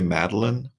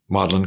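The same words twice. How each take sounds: First: It is said with the American pronunciation. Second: It is said with the British pronunciation. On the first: "we would say Magdalen" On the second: "Isn't that how it's pronounced?"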